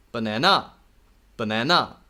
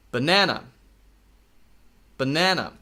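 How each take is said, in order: First: Teacher models the incorrect Banana on purpose; wrong banana. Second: Banana said cleanly, clear unnasal vowels, falling at the end; teacher models the right Banana for students; correct banana. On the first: Teacher demonstrates a deliberately wrong pronunciation. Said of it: "It's not correct, but just do it". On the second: Teacher demonstrates the correct way to say it. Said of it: "I want you to say it like this". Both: Shown as a demonstration.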